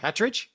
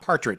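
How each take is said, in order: First: The first syllable has no r sound. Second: The first syllable has an r sound. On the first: The speaker calls it right. "they don't like that when people say it wrong" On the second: The speaker calls it wrong. "it's not Partridge"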